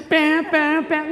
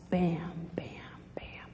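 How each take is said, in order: First: Loud, high mock alarm; alarm noise. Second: Low, hushed thudding whisper; whispered heartbeat. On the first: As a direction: sound the alarm with punchy bams. Imitates the bozo alert alarm. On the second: Acted. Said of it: "the beat of their own lust".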